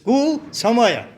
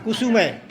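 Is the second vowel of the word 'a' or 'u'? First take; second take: a; u. First: The second vowel is an 'a' sound. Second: The second vowel is a 'u' sound. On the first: The speaker calls it right. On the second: The speaker calls it wrong. "ઘણા કુસુમય"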